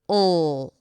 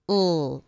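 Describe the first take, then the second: First: The L has tension at the back of the tongue. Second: The L has tension at the back of the tongue.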